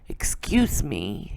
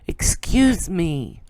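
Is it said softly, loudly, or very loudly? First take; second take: softly; very loudly. First: It is said softly. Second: It is said even louder.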